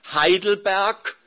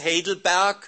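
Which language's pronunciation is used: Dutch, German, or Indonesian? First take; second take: German; Indonesian. First: The name is pronounced the German way. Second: The name is pronounced the Indonesian way. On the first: "moet ik de catechismus Heidelberg Duits uitspreken?" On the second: "af Indonesisch, gewoon Indonesisch"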